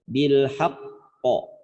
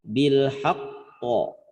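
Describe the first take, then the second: The two takes are said the same way.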